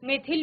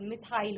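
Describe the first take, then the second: First: The word sounds like 'meth-il', with short vowels. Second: The word sounds like 'mi-thile', with a long second vowel.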